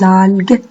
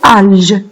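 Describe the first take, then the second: First: The g is hard, like the g in go. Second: The g is soft, like the s in measure. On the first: The speaker calls it right. "faites attention en écrivant le son G" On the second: The speaker calls it wrong. "sinon, ça va se prononcer alge"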